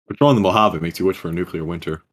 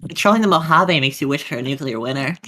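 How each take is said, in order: First: It is said in his natural voice. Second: It is said in a put-on character voice.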